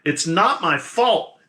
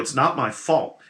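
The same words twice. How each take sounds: First: It is said at a louder volume. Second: It is said at a quieter volume.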